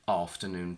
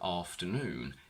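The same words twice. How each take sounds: First: The stress is on the first syllable. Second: The stress is on the last syllable. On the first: The word comes before a noun. "when we combine them with a noun, the stress shifts to the front" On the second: The word stands on its own. "on their own have their stress on the last syllable"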